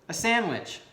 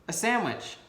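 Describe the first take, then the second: Both takes have the same delivery.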